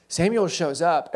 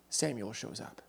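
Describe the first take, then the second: First: "Samuel shows up" slow and weighty, a touch louder; emphatic repeat. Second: Said in the usual way. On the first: Shown as a demonstration. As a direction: lean on "Samuel" and slowly spell it out. Repeats the phrase for effect.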